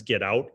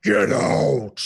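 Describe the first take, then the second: First: Said in the usual way. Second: Booming Get out like over a PA system; thunderous Baron bellow; scary loud. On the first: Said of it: "when the other Baron says". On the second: Acted. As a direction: roar it so they jump. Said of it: "it is scary loud".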